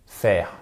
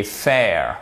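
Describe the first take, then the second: First: "faire" said the French way; French-style mispronunciation of fair. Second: "fair" as English, unlike French "faire"; English "fair", not the French word; English pronunciation of fair. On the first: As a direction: say "faire" as the French word, low and short. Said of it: "et pas". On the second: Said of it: "et pas faire". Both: Shown as a demonstration.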